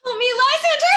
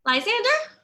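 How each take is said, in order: First: Screaming for help, much higher and louder; panicked cry for Lysander; terrified scream. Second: Calling out higher and louder, rising; worried searching call; anxious call. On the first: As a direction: wake from a nightmare shrieking his name. Hermia wakes from nightmare screaming. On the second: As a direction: call into the dark for him. Searching for absent Lysander. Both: Acted.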